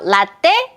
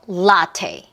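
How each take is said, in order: First: The syllables are said evenly, Korean style. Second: The stress falls on the first syllable. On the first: The speaker calls it wrong. "라떼 아니고" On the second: The speaker calls it right. "data 요 리듬이에요"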